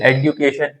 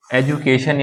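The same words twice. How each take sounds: First: "एडुकेशन" with d-yoo; hard d then yoo in "एडुकेशन"; second variant. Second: "एजुकेशन" with ju; first variant. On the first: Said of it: "एक देश बोल रहा है". ("एडुकेशन" में ड्यू) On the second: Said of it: "एक बोल रहा है". ("एजुकेशन" में जु) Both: Shown as a demonstration.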